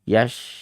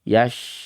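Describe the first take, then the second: Both takes have the same delivery.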